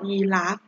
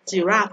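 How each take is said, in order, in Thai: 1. คำนี้ขึ้นต้นด้วยเสียง Y 2. คำนี้ขึ้นต้นด้วยเสียง J (1) "ในภาษาไทยนะคะเราจะออกเสียงว่ายีราฟ" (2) "เราจะออกเสียงว่าจีราฟ"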